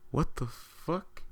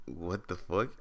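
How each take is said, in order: First: High, slow mock shout from a passing car; imitated yell. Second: Said in the usual way. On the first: Guys in a Mustang jeering at him, high mocking yell. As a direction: stretch it out high like a jeering stranger. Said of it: "They just shout at me". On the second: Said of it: "I'm like".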